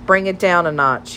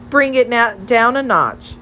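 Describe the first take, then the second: First: Said in the usual way. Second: Higher-pitched mock telling-off; mock scolding. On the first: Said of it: "he said, peering over the top of his glasses". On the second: A narrator's reading. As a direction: parrot the reprimand, pitched up. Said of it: "Molly scolded".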